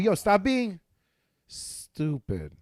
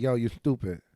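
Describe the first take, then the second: First: "stupid" said slowly with a lisped s. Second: "Yo, you stupid" with a nasal lisp; "stupid" with the s pushed through the nose. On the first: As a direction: drag out "stupid" with the lisp. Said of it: "Why you say stupid like that". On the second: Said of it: "You hear it?". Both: Shown as a demonstration.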